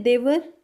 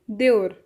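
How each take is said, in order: First: Said in the usual way. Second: देवर said as deor, the v dropped; Punjabi pronunciation. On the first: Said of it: "Hindi में हम बोलते हैं देवर". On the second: Shown as a demonstration. Teacher contrasts Punjabi with Hindi: देवर as deor. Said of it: "Punjabi में बोलते हैं देवर".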